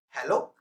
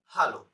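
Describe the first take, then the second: First: Hello with an English h-e-l-l-o, open e and gliding o. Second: Hallo with a broad ah vowel, HAH-lo, falling; German hallo. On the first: Teacher giving English hello before the German one. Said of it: "In English". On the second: Teacher showing German hallo after English hello. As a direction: say hallo German style, open ah then short o. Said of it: "but in German". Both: Shown as a demonstration.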